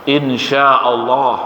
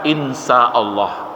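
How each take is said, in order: First: The middle consonant is a sh sound. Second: The middle consonant is an s sound. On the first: If God wills. The speaker calls it right. "jika Allah menghendaki" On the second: If God is evil. The speaker calls it wrong. "mirip-mirip tapi lain maknanya"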